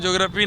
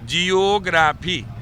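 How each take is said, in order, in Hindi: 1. शुरुआत एक अक्षर 'jyo' में सिमट जाती है। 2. शुरुआत दो अक्षरों 'ji-yo' में बंटी है। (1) "ज्योग्राफी नहीं" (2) "रियल उच्चारण होता है"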